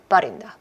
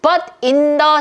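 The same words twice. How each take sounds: First: The words are blurred together quickly. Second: Each word is said slowly and separately.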